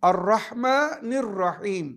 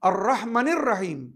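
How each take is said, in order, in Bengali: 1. এটি ধীরে ও যত্ন সহকারে পড়া হয়। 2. এটি দ্রুত ও তাড়াহুড়ো করে পড়া হয়।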